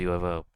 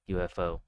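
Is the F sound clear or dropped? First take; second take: dropped; clear. First: The F sound is dropped. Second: The F sound is clearly pronounced. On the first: The speaker calls it wrong. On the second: The speaker calls it right.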